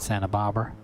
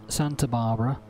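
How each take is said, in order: First: It is said in an American accent. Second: It is said in a British accent.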